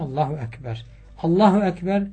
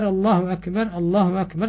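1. İki cümle arasında durak var. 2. İki cümle durak olmadan birbirine bağlı okunuyor. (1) "ezanda mutlak Allahu Ekber bekliyorsun" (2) "Kamette ise sanki hükmen böyle efendim arayı kesmiş gibi"

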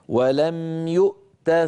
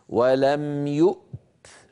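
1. التاء الأخيرة عليها حركة قصيرة. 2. التاء الأخيرة ساكنة بلا حركة. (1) "فيؤتى بقيت يؤتى فتحة. ولا ننطق بعد التاء ألفا" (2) "فإذا اضطررنا أن نقف"

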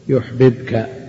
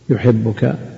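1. يُنطق صوتا b منفصلين. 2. يندمج صوتا b ليصبحا باءً واحدة مشددة. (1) "لولا الإدغام" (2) "يحبك الباء المشددة هذه عبارة عن باءين"

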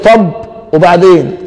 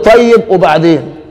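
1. الكلمة الأولى تُختصر إلى مقطع قصير واحد. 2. الكلمة الأولى تُقال كاملة بمقطعين. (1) "بدل ما يقول له طب وبعدين" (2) "لا قل له طيب وبعدين، يعني كلامك طيب"

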